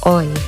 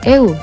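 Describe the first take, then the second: First: One gliding vowel is said, like oy. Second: Two separate vowels are said, e then u. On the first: The speaker calls it right. "tapi oi" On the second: The speaker calls it wrong. "bukan eu"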